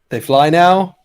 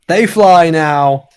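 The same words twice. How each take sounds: First: The voice rises at the end. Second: The voice falls at the end.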